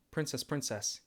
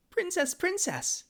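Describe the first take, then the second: First: Said in the usual way. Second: Princess princess squeaked very high and slow; squeaky princess. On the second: Shown as a demonstration. For chat's request, princess princess in a very high squeal. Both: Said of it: "Say princess twice".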